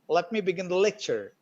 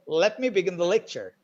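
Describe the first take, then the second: First: It is said with English-style reduction and rhythm. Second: The same.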